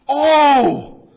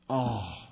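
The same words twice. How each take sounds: First: It is said in a startled, surprised tone. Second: It is said in a sad, disappointed tone. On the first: The speaker is surprised or afraid. "Surprise or fear" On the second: The speaker is sad or disappointed. "or sorrow, something of that, right? Disappointment, sorrow"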